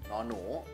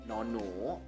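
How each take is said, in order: No difference in how they are said.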